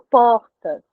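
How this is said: The R is a breathy, aspirated sound. This is how it is said in Brasília and Rio. "É um R mais uh, aspirado"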